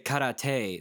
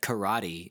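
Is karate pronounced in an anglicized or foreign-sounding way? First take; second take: foreign-sounding; anglicized. First: The word is said with a foreign-sounding pronunciation. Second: The word is said with an anglicized pronunciation. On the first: "then I feel like Jeremy Jam"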